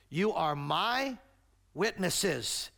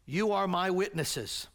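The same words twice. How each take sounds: First: Slow "You are my", leaning hard on "my"; stress on MY. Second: Said in the usual way. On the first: Shown as a demonstration. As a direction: draw out "my", then pause before "witnesses". Repeats verse to point up "my.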